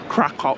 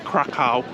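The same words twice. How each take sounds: First: The name is said the local Polish way. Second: The name is said the tourist way. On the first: This is how residents say it. The speaker calls it right. "the locals here call it Krakow" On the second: This is how visitors say it. The speaker calls it wrong. "and not Krakow"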